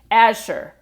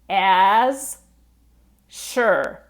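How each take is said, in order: First: It is said quickly, the z and sh blended. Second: It is said slowly, the two words kept apart. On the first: The speaker calls it right. "Now I say it a little bit faster" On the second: The speaker calls it wrong. "if we say it slowly"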